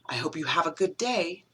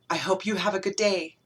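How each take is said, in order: First: It is said in a hostile, threatening tone. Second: It is said in a tender, loving tone. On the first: The speaker wants the listener out or will hit them. "If you don't leave this room right now, I'm going to slap you" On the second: The speaker is secretly in love with the listener. "I've never been able to tell you that I'm actually in love with you"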